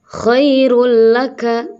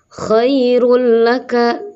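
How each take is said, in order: The two takes are said the same way.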